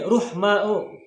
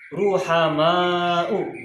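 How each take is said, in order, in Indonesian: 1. Dimulai 'ruhm' tanpa vokal setelah h. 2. Dimulai 'ruham' dengan vokal setelah h. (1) "mungkin ruhma'u" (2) "cara bacanya adalah ruhama'u"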